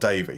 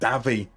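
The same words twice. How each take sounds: First: The name is said with an English pronunciation. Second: The name is said with a German pronunciation. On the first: The speaker calls it wrong. "not Davy" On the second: The speaker calls it right. "I've learned it is now it's Davy"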